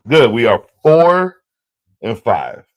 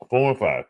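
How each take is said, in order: First: Loud, slow, satisfied count; loud satisfied tally; pleased. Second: Said in the usual way. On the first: Real, not acted. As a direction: announce it proudly. Celebrating his record.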